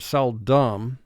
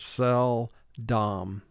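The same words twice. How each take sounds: First: The second vowel is reduced to a short uh. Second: The second vowel is a clear, exaggerated o. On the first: This is the everyday pronunciation. "we would pronounce the word seldom like it's D U M" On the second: This pronunciation helps with spelling the word. "for spelling we pronounce the word seldom"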